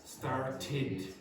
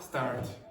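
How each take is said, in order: First: The final -ed syllable is clearly pronounced. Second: The final -ed syllable is left off. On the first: The speaker calls it right. "You have to pronounce the last part" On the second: The speaker calls it wrong. "I've already heard Vicente make a mistake. He went start"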